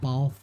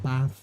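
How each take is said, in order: First: The vowel is a long, broad 'ah', almost R-like. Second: The vowel is a short, flat 'a'. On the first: This is how the speaker's own area says it. "and bath" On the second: This is how others from England say it. "not bath"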